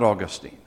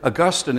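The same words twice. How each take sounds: First: The stress is on the first syllable. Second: The stress is on the second syllable. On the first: This is the name of a place. The speaker calls it wrong. "not Augustine" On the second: This is the name of the theologian. The speaker calls it right. "is the correct pronunciation"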